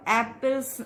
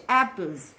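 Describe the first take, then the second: First: "apples" ending in a hissed s sound, the wrong way; wrong pronunciation. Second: "apples" ending in a buzzing z sound, the right way; correct pronunciation. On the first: Teacher showing students the incorrect plural ending. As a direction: say "apples" with a final s, not z. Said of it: "This is, uh, incorrect". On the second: Teacher giving students the correct plural ending. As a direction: finish "apples" on a clear z. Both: Shown as a demonstration.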